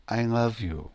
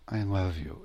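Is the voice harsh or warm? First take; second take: warm; warm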